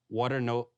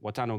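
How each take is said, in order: First: It is said in the speaker's ordinary accent. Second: It is said in a Nigerian accent.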